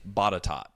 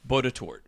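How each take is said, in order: First: It is said the way locals say it. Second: It is said following its spelling. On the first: "They pronounce it Botatot" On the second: "it's spelled B O T E T O U R T. Right? Like Botatort or something like that"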